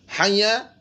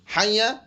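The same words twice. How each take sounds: No difference in how they are said.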